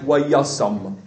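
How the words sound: The final vowel sounds like an 'a'. This is the Yemenite pronunciation.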